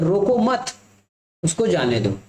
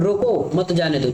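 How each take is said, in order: First: It is calm with a pause after 'mat'. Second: It is shouted with a pause after 'roko'. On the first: Do not stop him, let him go. "इस second वाले line को पढ़ा जाए तो" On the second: Stop him, do not let him go. "यदि मैं सामने चिल्लाऊंगा फिर रोको मत जाने दो"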